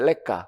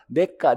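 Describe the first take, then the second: First: The word begins with an L-like sound. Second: The word begins with an N sound. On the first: "미래 가치를 래가라고 얘기해" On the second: "발음이 어려우니까 우리나라에서는 내가, 니은으로 발음하자"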